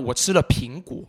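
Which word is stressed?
苹果. The stress falls on the word 苹果. It tells what was eaten. "你吃了什么那我吃了苹果那你自然就把苹果往上抬"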